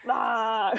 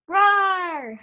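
First: Laughing roar. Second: Put-on loud, high kid roar; playful roar. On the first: Pretend. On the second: Shown as a demonstration. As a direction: roar like a little lion. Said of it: "Or you could go roar".

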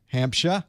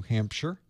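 First: "Hampshire" ending in an open "shuh"; "Hampshire" with a dropped final r, lifted like a question. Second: Said in the usual way. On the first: Shown as a demonstration. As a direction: say "Hampshire" as "HAMP-shah", without the r. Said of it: "Mis-, mispronounced it". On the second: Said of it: "mispronounced it".

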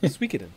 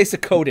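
First: "Suikoden" as SWEE-kih-den; correct pronunciation. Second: "Suikoden" as suh-KOH-den; alternative mispronunciation. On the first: Host repeating what he said, "Suikoden" as SWEE-kih-den. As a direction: say "Suikoden" starting with a swee sound. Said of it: "That's what I said". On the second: Host showing a worse option, "Suikoden" said suh-KOH-den. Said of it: "Be happy I didn't say". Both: Shown as a demonstration.

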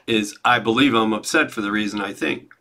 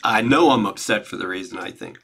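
First: Believe stressed, rising. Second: Know stressed, firm. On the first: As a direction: lean on the word believe. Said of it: "It's not just I believe it". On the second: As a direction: lean on the word know. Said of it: "I know it in my gut". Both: Shown as a demonstration.

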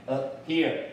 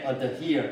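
First: "adhere" with a tiny stop in place of the D; swallowed D in "adhere", then "here"; unreleased D. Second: "adhere" with the D released as an extra beat; heavy, released D in "adhere"; D fully sounded. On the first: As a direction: say "adhere" as "uh', here", D held back. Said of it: "我会停下一". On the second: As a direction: say "adhere" as "uh-duh-here". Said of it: "通常我都不念出来的啊". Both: Shown as a demonstration.

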